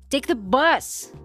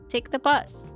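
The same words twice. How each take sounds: First: It is said in an angry, irritated voice. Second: It is said in a calm, neutral voice.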